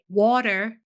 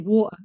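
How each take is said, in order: First: The middle T sounds like a D. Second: The middle T is left out entirely. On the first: "like there's a D in it" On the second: "we forget there's even a letter there"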